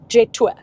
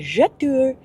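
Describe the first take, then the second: First: It is said as two plain English words. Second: It is said with a French-sounding pronunciation.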